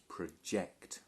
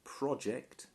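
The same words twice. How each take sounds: First: The stress is on the second syllable. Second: The stress is on the first syllable. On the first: It is used as a verb. "this is a verb, so notice the pronunciation is project" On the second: It is used as a noun. "when it's a noun we pronounce it project"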